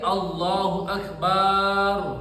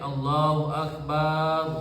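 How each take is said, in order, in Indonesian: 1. Vokal pada suku kata terakhir itu panjang. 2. Vokal pada suku kata terakhir itu pendek. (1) "berarti Allah itu beduk. Sebab akbar panjang" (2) "Saya bilang Allahu akbar"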